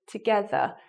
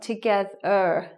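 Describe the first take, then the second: First: The first vowel is reduced to a schwa. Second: The first vowel is a full, strong vowel. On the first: The speaker calls it right. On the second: The speaker calls it wrong.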